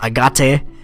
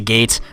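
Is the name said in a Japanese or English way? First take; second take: Japanese; English. First: The name is pronounced in a Japanese way. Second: The name is pronounced in an English way.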